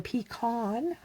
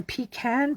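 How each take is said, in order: First: "pecan" said pee-KAHN, second vowel as in "father"; pee-KAHN pronunciation. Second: "pecan" said PEE-can, second vowel as in "cat"; PEE-can pronunciation. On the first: Card maker offering viewers the other variant, "pecan" as pee-KAHN. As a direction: say "pecan" with a broad AH in the last syllable. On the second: Card maker naming her pecan pie card, "pecan" with a cat vowel. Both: Shown as a demonstration. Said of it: "How do you say it?".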